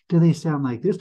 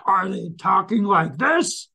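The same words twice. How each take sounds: First: Said in the usual way. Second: Pitched up and drawn out; high, slow demo voice. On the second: Shown as a demonstration. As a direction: show a slow sing-song tone.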